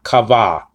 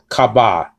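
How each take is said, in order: First: The middle consonant is a soft v. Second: The middle consonant is a hard b. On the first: The speaker calls it wrong. "not kava" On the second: The speaker calls it right. "So it's still kaba"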